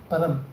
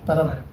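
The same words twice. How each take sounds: The two takes are said the same way.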